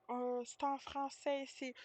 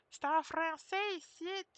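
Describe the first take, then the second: First: Mock lady, slightly raised pitch; imitated lady. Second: High, emphatic caricature; mock Québécois motto. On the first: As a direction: lightly mimic her insisting on French. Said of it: "And she was like". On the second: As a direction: exaggerate it like an insistent local slogan. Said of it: "the motto of Québécois".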